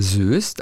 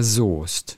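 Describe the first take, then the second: First: Soest with an ö vowel; common misreading. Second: Soest with a long o; correct long O. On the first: Podcaster quotes the common misreading, Söst. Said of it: "Viele sagen auch erstmal Soest". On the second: Podcaster corrects the town's name, long o. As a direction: say Soest as Sohst, silent e. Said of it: "es ist ja Soest". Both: Shown as a demonstration.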